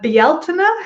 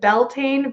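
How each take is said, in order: First: It is said with a non-American, more traditional pronunciation. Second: It is said with an Americanized pronunciation. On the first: The speaker calls it right. "it's pronounced closer to Bealtaine" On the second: The speaker calls it wrong. "that tends to be the way uh, that we say it here in the States"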